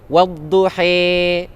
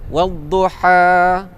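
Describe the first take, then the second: First: The final vowel is bent fully toward e. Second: The final vowel lies between a and e. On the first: "Imalah ni dia bunyi seperti A" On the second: "Taqlil tu bunyi macam mana?"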